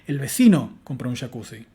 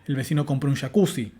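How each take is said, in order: First: The main stress falls on vecino. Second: The main stress falls on jacuzzi. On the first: The neighbour is the new information answering who. The speaker calls it right. "asignarle el acento nuclear al sujeto, el vecino" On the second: The jacuzzi is the new information. The speaker calls it wrong. "Y no"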